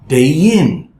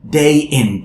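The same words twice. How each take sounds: First: A y sound links the two words together. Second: A glottal stop separates the two words. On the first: The speaker calls it right. "So it will be day in, y, y" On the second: The speaker calls it wrong. "I don't want this glottal sound"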